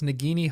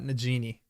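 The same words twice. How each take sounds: First: The G is a hard sound, as in go. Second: The G is a soft sound, as in gem. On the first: The speaker calls it right. "Nagini is with a hard G" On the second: The speaker calls it wrong. "not Nagini"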